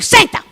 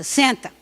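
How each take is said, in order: First: The command is said in an extremely aggressive tone. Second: The command is said in a calm, non-aggressive tone. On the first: The speaker calls it wrong. "a segunda é extremamente agressiva" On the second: The speaker calls it right. "A primeira não é agressiva"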